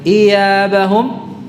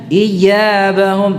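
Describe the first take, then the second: First: The y sound is drawn out and slurred. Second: The y sound is pressed out too forcefully. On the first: "tidak diseret" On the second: "tidak pula ditekan berlebihan"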